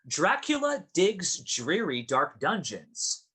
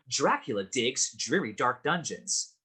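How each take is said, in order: First: It is said at a moderate pace. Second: It is said a little faster.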